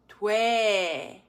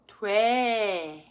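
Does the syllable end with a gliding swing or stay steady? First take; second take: steady; steady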